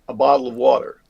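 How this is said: It is said in an American accent with softened t's. "we go across to America, and what we do is we soften the T's down"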